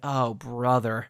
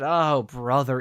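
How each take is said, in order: First: It is said at a softer volume. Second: It is said at a louder volume.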